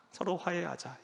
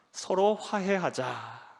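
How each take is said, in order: First: 서로 화해하자 said again much softer; a quiet echo of 서로 화해하자; soft repeat. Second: 서로 화해하자 drawn out very slowly; a slow, weighty 서로 화해하자; slow, deliberate. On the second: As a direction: spell out 서로 화해하자 word by word. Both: Shown as a demonstration.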